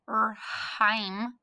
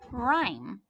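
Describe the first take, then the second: First: An H sound is pronounced before the R. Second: No H sound is pronounced before the R. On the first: The speaker calls it wrong. "I don't read it rhyme" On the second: The speaker calls it right. "I read it rhyme"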